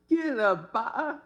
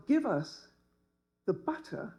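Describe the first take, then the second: First: "butter" with the t's cut to a glottal stop. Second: Said in the usual way. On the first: Shown as a demonstration. Daughter demonstrates her glottal stop, "butter" with t's dropped. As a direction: say "Give the butter" higher, swallowing the t in "butter". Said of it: "would morph into". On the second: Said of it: "A good glottal stop must move to the back".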